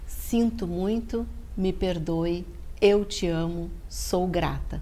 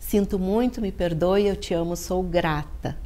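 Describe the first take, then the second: First: The phrases are spoken more slowly and deliberately. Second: The phrases are spoken at a normal, quicker pace.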